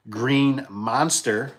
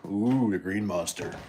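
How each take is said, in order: First: Said in the usual way. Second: Lower, drawn out "Ooh, the Green Monster" like a dreaded beast; a hint of mock dread on "Green Monster"; mock ominous. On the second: Shown as a demonstration.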